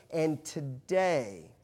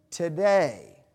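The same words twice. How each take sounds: First: Slow buildup. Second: Today repeated with a loud punch; emphatic repeat. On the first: Preacher slowing to build suspense before a statistic. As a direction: draw out today very slowly. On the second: Preacher punching the repeated word to stress the statistic. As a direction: hit today hard the second time. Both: Acted.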